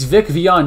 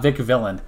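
First: The surname is said like 'Vion', without an L. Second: The surname is said like 'Villain', with an L. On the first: The speaker calls it right. "It's Vic Vion" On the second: The speaker calls it wrong. "not Vic Villain"

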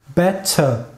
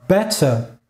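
No difference in how they are said.

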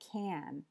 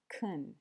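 First: The word has a full, clear vowel. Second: The word has a short, weak vowel. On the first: The word is emphasized or ends the sentence. "using its full form" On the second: The word is unstressed within the sentence. "using its weak form"

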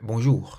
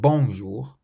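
First: The stress is on the last syllable. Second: The stress is on the first syllable. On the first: The speaker calls it right. "You always stress the final syllable of every word" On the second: The speaker calls it wrong. "so it's not bonjour"

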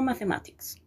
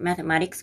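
First: The T is a clear, full T sound. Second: The T is a quick flap sound. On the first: "con la T" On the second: "con flap"

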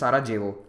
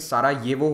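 First: The middle consonant sounds like an English J. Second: The middle consonant sounds like an English Y. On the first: The speaker calls it wrong. "ना कि" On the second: The speaker calls it right. "जे को वाई की तरह प्रोनाउंस किया जाता है"

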